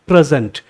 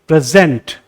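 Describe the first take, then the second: First: The stress is on the first syllable. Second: The stress is on the second syllable. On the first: It is a noun meaning a gift. "Noun है तो stress होना चाहिए पहले syllable पे" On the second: It is a verb meaning to give. "ज यहां stress दे रहा हूं"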